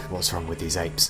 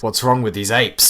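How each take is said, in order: First: Said in the usual way. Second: Louder, exasperated; exasperated outburst. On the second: Acted. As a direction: burst out in disbelief. Exclaimed louder.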